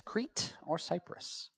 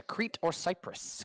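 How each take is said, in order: First: Whispered quiz question; whispering. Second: Slow, deliberate quiz read; slow and drawn out. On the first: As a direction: repeat it in a soft whisper. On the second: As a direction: stretch each word out slowly. Quiz question read out slowly. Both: Shown as a demonstration.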